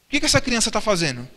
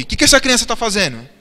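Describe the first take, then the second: First: Said in the usual way. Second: Asked again, louder. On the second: Shown as a demonstration. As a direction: repeat the question louder. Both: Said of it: "Eu não ouvi".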